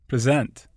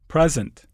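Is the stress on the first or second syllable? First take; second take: second; first. First: The stress is on the second syllable. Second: The stress is on the first syllable. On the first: It is used as a verb. "the corresponding verb is stressed on the stem" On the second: It is used as a noun. "Many nouns and adjectives are stressed on the prefix"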